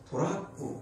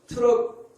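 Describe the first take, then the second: First: It is said in three syllables, to-ra-ku. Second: It is said in two syllables, teu-reok. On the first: The speaker calls it wrong. "이거를 돌았고. 이렇게 발음해요" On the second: The speaker calls it right. "트럭인데"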